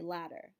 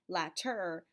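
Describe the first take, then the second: First: The middle consonant is a quick flap. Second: The middle consonant is a clear T. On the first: The speaker calls it right. "but you say ladder" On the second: The speaker calls it wrong. "you don't say latter"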